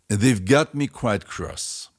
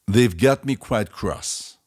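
Both takes have the same delivery.

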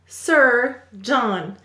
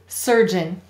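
First: The second syllable is said with a full 'john' vowel. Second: The second syllable is said with a weak 'jun' vowel. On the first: It is a spelling aid that shows how the word is written. "We will say to spell Sir John" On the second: It is the everyday way the word is said. "Let's read it"

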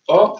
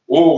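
First: The vowel is open, close to an E. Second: The vowel is closed and rounded. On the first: "c'est un O qui est près du E" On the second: "Et le O fermé"

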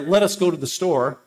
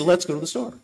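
First: Let us is said as two full words. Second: Let us is contracted to one syllable. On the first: The speaker calls it wrong. "you don't say" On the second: The speaker calls it right. "you say"

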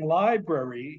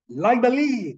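First: The word is said in a standard English accent. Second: The word is said in a Thai English accent. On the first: The speaker calls it right. "Instead of saying library" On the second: The speaker calls it wrong. "he would say Thai English style"

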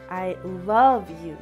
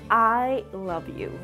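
First: The stress falls on the word 'love'. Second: The stress falls on the word 'I'. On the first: What the speaker feels for you really is love. "The second means that what I feel for you is love" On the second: Maybe nobody else loves you, but the speaker does. "The first means I love you. Maybe nobody else does, but I do"

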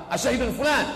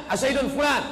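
The two takes are said the same way.

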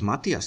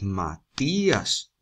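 First: The i and a blend into one syllable. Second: The i and a fall in separate syllables. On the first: The speaker calls it wrong. "no decimos Matías" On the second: The speaker calls it right. "decimos Matías ... para romper el diptongo"

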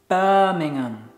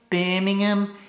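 First: It is said in a standard British accent. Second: It is said in a local Brummy accent.

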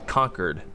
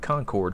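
First: The second syllable is a reduced 'kerd'. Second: The second syllable is a full 'cord'. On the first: This is how the town's name is said in the game. "pronounced Concord, as in someone's been defeated and conquered" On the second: This is how the town's name is said where the speaker lives. "but I would always call it Concord"

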